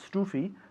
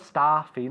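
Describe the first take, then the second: First: The first vowel is closed, jaw raised. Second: The first vowel is open, jaw lowered. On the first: The speaker calls it wrong. "not stoofy" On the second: The speaker calls it right. "bajando la mandíbula"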